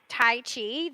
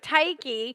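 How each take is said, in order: First: The second syllable starts with a ch sound. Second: The second syllable starts with a k sound. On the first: The speaker calls it wrong. "I'm saying it wrong" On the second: The speaker calls it right. "You say it like a K"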